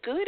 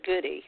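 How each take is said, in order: First: GOOD as one syllable, no EE after the D; silent final E. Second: GOODY as two syllables, EE after the D; sounded final E. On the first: Host asking guest about surname, silent final E. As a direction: say GOOD like the ordinary word. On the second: Host asking guest about surname, sounded final E. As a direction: say GOODY with a clear EE ending. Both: Shown as a demonstration. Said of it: "pronounce your name".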